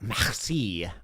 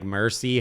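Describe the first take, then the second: First: It is said with a French pronunciation. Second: It is said with an English pronunciation. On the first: "You have to do this like merci, like it's like this. That's like how you actually say it" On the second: "But I was just saying like mercy half the time"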